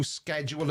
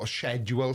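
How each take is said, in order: First: "schedule" said American style, with a hard sk at the start; "schedule" as skej-ool, with an American sk; American pronunciation. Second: "schedule" as shed-yool, with a British sh; British pronunciation. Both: Shown as a demonstration. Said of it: "sorry, I'm not American".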